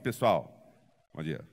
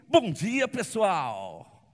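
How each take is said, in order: First: It is said flatly with very little energy. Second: It is said with full, lively energy.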